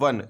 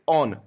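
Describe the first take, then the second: First: It is said with a 'w' sound, like 'won'. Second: It is said with no 'w' sound, like 'own'. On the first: The speaker calls it wrong. "Not वन" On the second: The speaker calls it right. "It is ऑन"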